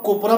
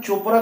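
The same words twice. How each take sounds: First: कोपरा with a hard k in place of ch; misread CH as K. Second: Said in the usual way. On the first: Shown as a demonstration. Teacher shows learners a likely misreading, कोपरा with k for ch. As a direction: say कोपरा, opening on a k sound. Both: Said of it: "यहाँ सीएच से हमने क बोला".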